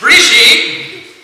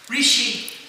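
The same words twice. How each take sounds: First: It is said much more loudly. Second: It is said at a normal, softer volume.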